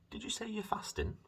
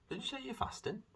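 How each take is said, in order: First: High imitation of mum; mum's voice. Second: High imitation of mum; mum's voice again. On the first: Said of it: "My mum asked me before". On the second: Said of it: "she then said". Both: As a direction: mimic mum asking, pitched up high.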